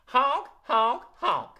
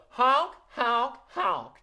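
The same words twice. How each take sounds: First: Put-on loud, sassy goose honks again with the kids. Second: Loud, sassy goose honks. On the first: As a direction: honk along like a cheeky goose. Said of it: "Try that with me". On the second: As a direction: honk like a cheeky goose. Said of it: "What about a sassy goose?". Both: Shown as a demonstration.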